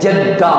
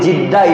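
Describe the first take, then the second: First: The first vowel is an 'a' sound. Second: The first vowel is an 'i' sound. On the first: The speaker calls it right. "ஜத்தாண்டா உம்மம்மா" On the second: The speaker calls it wrong. "அது சரியான பேரு ஜித்தா இல்ல"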